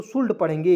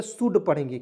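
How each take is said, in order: First: शुल्ड with a sounded L, "shuld"; wrong pronunciation. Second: शुड with silent L, "shood"; correct pronunciation. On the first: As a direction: show the mistake: शुल्ड with the L pronounced, "shuld". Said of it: "बिल्कुल गलत". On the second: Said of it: "शुल्ड नहीं पढ़ेंगे, शुड पढ़ेंगे". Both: Shown as a demonstration.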